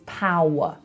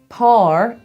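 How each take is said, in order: First: The vowel is a standard English 'ow'. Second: The vowel sounds like a Belfast 'ar'. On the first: "Par is power" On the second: "Par is power"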